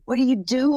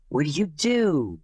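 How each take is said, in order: First: Asked higher and louder; excited question. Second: Slow, curious asking; slow question. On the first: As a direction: push the question up eagerly. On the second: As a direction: ask it slowly and plainly. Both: Retold or imitated. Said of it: "everybody's asking him".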